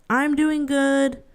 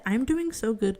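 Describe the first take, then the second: First: Slow, deliberate mock-reassuring; drawn-out I'm doing good; slow insisting. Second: Said in the usual way. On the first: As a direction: say it slowly to convince them.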